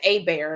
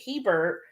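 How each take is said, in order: First: The name starts with an 'ay' sound, no h. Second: The name starts with a pronounced 'h' sound. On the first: This is how the family down here says it. "they spell it H E B E R T and pronounce it A bear" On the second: This is how the husband's northern family says it. "we pronounce it Hebert"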